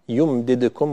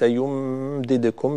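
First: The m sound is short, not prolonged. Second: The m sound is held and prolonged. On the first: The speaker calls it right. "لا يحتاج أن تزيدي وقت الميم" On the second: The speaker calls it wrong. "وليس"

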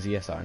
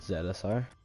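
First: The letter Z is said as 'zee'. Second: The letter Z is said as 'zed'. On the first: "Americans say Z" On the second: "Canadians and English people say Zed"

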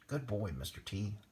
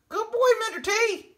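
First: It is said at a normal, quieter volume. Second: It is said noticeably louder.

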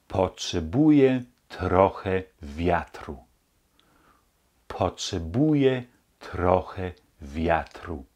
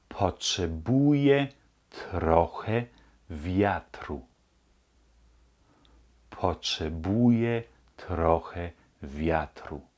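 The two takes are said the same way.

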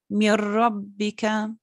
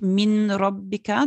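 First: The n merges into a doubled r sound. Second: The n is pronounced separately before the r. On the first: The speaker calls it right. "sondern Mirrobbika" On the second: The speaker calls it wrong. "Das ist nicht Minrobbika, das ist schwierig auszusprechen"

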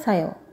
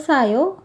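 First: The pitch stays flat at the end. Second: The pitch rises slightly at the end. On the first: It is a statement. "Kalau kalimat pernyataan atau kalimat berita datar saja" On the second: It is a question. "Kalau kalimat tanya agak naik"

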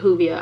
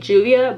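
First: The word begins without a J sound. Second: The word begins with a J sound. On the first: This is the speaker's own habitual way. "I've always pronounced it Juvia... the J is silent" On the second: This is how most people say it. "I hear everybody say Juvia"

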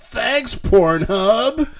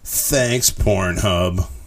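First: It is said in an excited tone. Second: It is said in a sarcastic tone.

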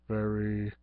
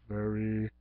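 No difference in how they are said.

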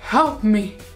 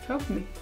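First: It is said in an imitated comic voice. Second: It is said in her own normal voice.

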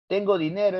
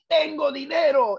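First: The voice falls evenly like a plain statement. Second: The voice is raised and emphatic like an exclamation. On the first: The speaker states a fact. "es enunciativa" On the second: The speaker exclaims with strong feeling. "es exclamativa"

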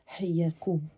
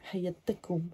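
First: Haya runs straight into kum with no ta. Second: A ta sound links haya and kum. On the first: The speaker calls it wrong. "No, it doesn't feel right" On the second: The speaker calls it right. "you put the ta in front of the kum because it ends in a vowel"

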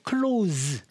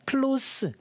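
First: The word ends with a buzzing z sound. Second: The word ends with a hissing s sound. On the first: It means to shut something. "close가 동사로 만약에 쓰인다면 발음 기호가 이것도 이것 때는 Z로 갑니다" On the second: It means near or intimate. "여기서는 형용사로 쓰였어요. 이때는 발음 기호가 씁니다"

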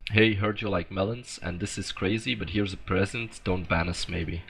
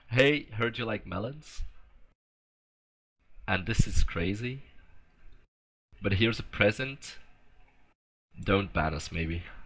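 First: It is said at a normal pace. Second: It is said slowly.

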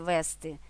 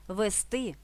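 First: The stress is on the first syllable. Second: The stress is on the last syllable. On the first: The speaker calls it wrong. "а не" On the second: The speaker calls it right. "У дієсловах на «сти» наголошуємо останній склад"

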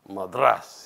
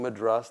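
First: The word is said gutturally, with a contemptuous edge. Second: The word is said plainly, without a guttural sound. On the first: The speaker calls it wrong. "it was very guttural way" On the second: The speaker calls it right. "the way I would say it"

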